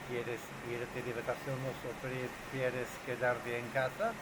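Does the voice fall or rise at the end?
rise. The voice rises at the end. The speaker calls it wrong. "¿Por qué el número dos no suena natural?"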